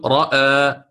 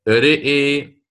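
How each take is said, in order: First: The vowels are fully open a sounds. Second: The vowels are tilted toward an e sound. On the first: "نحن في الفتح نقول رأى" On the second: "ورش كيف سيقرأ؟ سيقول سيقرأ هكذا رئي"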